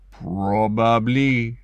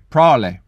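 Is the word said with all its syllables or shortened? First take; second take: all syllables; shortened. First: All syllables are said, with a French flavor. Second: The word is shortened to fewer syllables. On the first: This was the speaker's old pronunciation. "which I used to turn into a Frenchlicious probably" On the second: This is the speaker's new pronunciation. "is now going to be"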